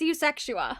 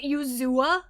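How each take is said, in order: First: The name is said in full, with 'sex' in the middle. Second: The name is shortened, with no 'sex' in the middle. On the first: This is the name as it is written. The speaker calls it right. "Sound it out" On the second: This is how someone else mispronounced the name. The speaker calls it wrong. "It's definitely not Uzua or whatever Darren said"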